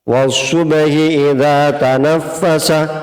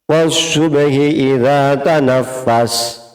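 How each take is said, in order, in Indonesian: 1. Kata terakhir berakhir dengan vokal pendek. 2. Kata terakhir berakhir pada konsonan tanpa harakat. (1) "pertama tanpa wakaf untuk nahwiyahnya" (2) "kedua kalinya dengan wakaf untuk mengetahui atau sesuai dengan tajwidnya"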